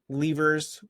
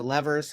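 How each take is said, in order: First: "levers" said LEE-vers; long-e pronunciation. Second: "levers" said LEV-ers; short-e pronunciation. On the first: Offering viewers both versions, long-e pronunciation. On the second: Offering viewers both versions, short-e pronunciation. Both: Shown as a demonstration. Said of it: "however you pronounce it".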